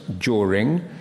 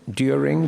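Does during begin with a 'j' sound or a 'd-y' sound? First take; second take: j; d-y. First: It begins with a merged 'j' sound. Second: It begins with separate 'd' and 'y' sounds. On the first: This is the newer form. "becomes during" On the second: This is the older form. "During becomes"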